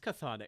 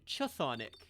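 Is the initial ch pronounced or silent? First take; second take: silent; pronounced. First: The word starts directly with a th sound. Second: The initial ch is sounded before the th. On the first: "It's Chthonic" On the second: "that word starts with a ch. Why isn't it Chthonic?"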